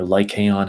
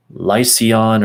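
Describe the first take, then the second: First: "Lycaon" said with a k sound, lie-kay-on; Lycaon with hard c. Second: "Lycaon" said with an s sound, lie-see-on; Lycaon with soft c. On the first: Reader offering another reading of a name, "Lycaon" with hard c. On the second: Reader trying a name however you say it, "Lycaon" with soft c. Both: Shown as a demonstration. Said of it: "however you say that".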